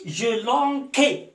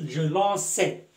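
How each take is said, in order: First: The middle consonant is a hard k sound. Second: The middle consonant is a soft s sound. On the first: The speaker calls it wrong. "C devant A se prononce K" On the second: The speaker calls it right. "j'ajoute la cédille"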